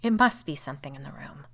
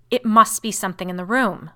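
First: Restrained, level assertion; suspicious agreement. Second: Loud snap like a lash; snapping. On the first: Woman agrees while eyeing her sister, suspiciously. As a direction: agree warily, without raising the pitch. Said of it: "looking at Caroline suspiciously". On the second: Brother declares a cause after searching, snapping. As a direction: crack it out hard and forceful. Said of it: "in a voice which seemed to snap like a lash". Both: A narrator's reading.

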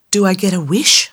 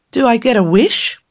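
First: Whispered. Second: Said in the usual way. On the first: Acted. Tammy asks again.

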